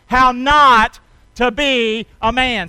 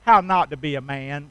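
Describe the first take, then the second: First: How NOT to be a man, slow and loud with NOT stretched long; slow emphatic call. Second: Said in the usual way. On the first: Shown as a demonstration. Preacher leading the church in the title, slow and loud. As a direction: lean hard on NOT and drag it out. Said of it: "Say it with me".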